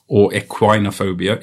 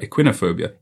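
First: "equinophobia" said ek-wine-o-phobia, tentative rise; long-i pronunciation. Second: "Equinophobia" said ek-win-o-phobia, falling softly; short-i pronunciation. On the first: Reading out the definition, "equinophobia" said ek-wine-o-phobia. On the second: Correcting himself on the word, "Equinophobia" said ek-win-o-phobia. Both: Shown as a demonstration. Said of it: "How do I pronounce equinophobia".

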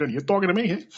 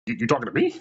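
First: Mock tough-guy challenge, higher pitched; jokey film-star impression with rising end; Robert De Niro. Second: Incredulous, stammered question; taken aback. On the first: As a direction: lightly imitate a movie tough guy's question. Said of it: "feel like Rob". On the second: Retold or imitated. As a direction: ask it as if you can't believe you're being addressed. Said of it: "I'm looking around like".

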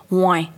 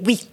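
First: "Ouais" said the slangy, open way; relaxed colloquial "Ouais" for yes; casual "Ouais". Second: "oui" said neatly, in correct French; careful standard-French "oui"; proper "oui". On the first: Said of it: "j'avais pas le droit de dire". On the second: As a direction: say "oui" as a strict mother demands. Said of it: "tu parles bien le français". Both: Shown as a demonstration.

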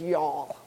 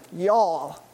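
First: A light, lowered Texan drawl on "Y'all". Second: Said in the usual way. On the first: Retold or imitated. Pastor playfully imitating Sky saying "Y'all", in a light Texan drawl. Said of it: "in her sweet Texan drawl".

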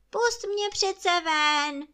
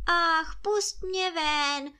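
First: Louder, higher pleading cry; pitiful cry. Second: High, pleading wail of a trapped spirit; pitiful wail. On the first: Spirit begs the boy again, louder desperate wail. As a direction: push the plea harder, almost a shout. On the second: Spirit begs the boy to free him, high wailing plea. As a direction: beg to be let out, voice lifted high. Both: A narrator's reading. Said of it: "duch přežalostně volal".

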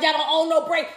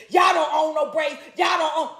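First: A hint of a dismissive white woman, spoken not shouted; lightly mocking white woman. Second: Shouted, higher mock quote. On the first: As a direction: quote her offhand, at speaking level. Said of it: "the white woman gonna get in there talking about". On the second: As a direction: throw their line back at them, yelling. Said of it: "your defense is".

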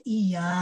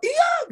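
First: Said in the usual way. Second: Shouted yes. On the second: Shown as a demonstration. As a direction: snap out "iya" as a shout. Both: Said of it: "nggak usah".

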